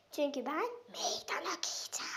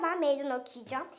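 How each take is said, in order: First: Breathy secret whisper. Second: Said in the usual way. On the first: Acted. Whispered aside before challenge.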